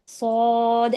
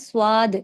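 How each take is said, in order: First: The s is heavy, with no w glide. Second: A w glide follows the s sound. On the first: The speaker calls it right. "सौ जो एक हैवी हो गया" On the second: The speaker calls it wrong. "वाह वाली साउंड नहीं डालना"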